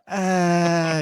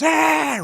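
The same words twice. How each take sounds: First: It is a weak, half-hearted shout. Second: It is a loud, ecstatic roar.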